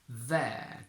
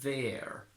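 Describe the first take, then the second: First: British accent, with a long, open e vowel. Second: American accent, with the lower America vowel. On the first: "in modern British English as a normal, long, open e" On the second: "In standard American, however, we get the same sound that we had in America"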